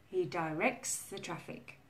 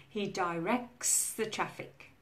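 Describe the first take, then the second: Both takes have the same delivery.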